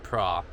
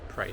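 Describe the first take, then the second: First: The vowel is an open 'ah' sound. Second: The vowel is an 'ay' sound like pray. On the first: This is how the spelling suggests it is read. The speaker calls it wrong. "spelt like pra" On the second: This is how locals say it. The speaker calls it right. "if you're in the know like us, you pronounce it Prey Sands"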